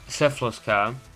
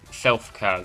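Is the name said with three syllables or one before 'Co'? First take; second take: three syllables; one syllable. First: The name is said with three syllables, like syphilis. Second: The name is said as one syllable, silf. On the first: The speaker calls it wrong. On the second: The speaker calls it right.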